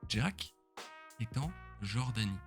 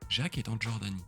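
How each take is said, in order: First: The name starts with a 'dj' sound, like Jack. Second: The name starts with a 'zh' sound, like Jacques. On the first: "C'est de dire Jack est en Jordanie" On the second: "au lieu de dire Jacques est en Jordanie"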